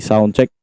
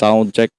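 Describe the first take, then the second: First: The voice has boosted bass and sounds boomy. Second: The voice has boosted treble and sounds sharp. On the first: "Pag dinaas natin, ganyan yung mangyayari" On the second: "Pag tinaas natin, tatalim yung boses natin"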